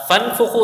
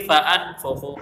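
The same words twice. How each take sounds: First: فانفخو run together as fanfukhu, hamza dropped, pitched up; teacher showing the wrong فانفخو; wrong reading. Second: فانفخو with the hamza kept, fa-anfukhu; teacher giving the correct فانفخو; correct reading. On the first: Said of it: "اس کو نہیں پڑھیں گے". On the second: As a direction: sound the hamza in فانفخو clearly. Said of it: "اس کو ہم پڑھیں گے". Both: Shown as a demonstration.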